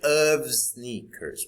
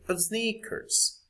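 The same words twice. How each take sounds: First: The word 'of' is full and strong. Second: The word 'of' is short and weak. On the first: The speaker calls it wrong. "we don't say of sneakers" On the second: The speaker calls it right. "we say of sneakers"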